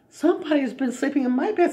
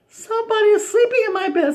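First: It is said in a middle-sized voice. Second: It is said in a wee little voice.

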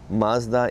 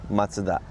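First: Mazda is said with an American pronunciation. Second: Mazda is said with a Japanese pronunciation. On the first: "Mazda in the US" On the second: "in Japan we pronounce Mazda"

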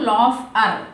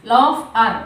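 The two takes are said the same way.

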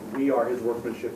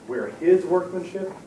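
First: The stress falls on the word we. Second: The stress falls on the word his. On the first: The group together, not one individual, is the work. "we cooperatively are his workmanship, not any one individual person" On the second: God, not the people themselves, does the work. "It's not us. ... God is doing this"

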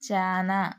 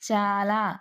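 First: The middle consonant is an 'n' sound. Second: The middle consonant is an 'l' sound. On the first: The speaker calls it wrong. "వర్ణ మార్పిడి దోషాలకు ఉదాహరణ" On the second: The speaker calls it right. "వర్ణ మార్పిడి దోషాలకు ఉదాహరణ"

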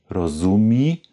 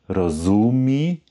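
Both takes have the same delivery.

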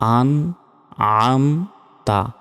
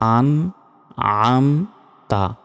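No difference in how they are said.

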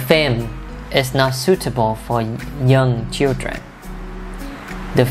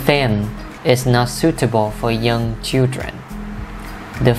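The two takes are said the same way.

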